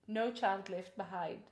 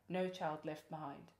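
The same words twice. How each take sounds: First: It is said in a warm, kindly tone. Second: It is said in a menacing, threatening tone.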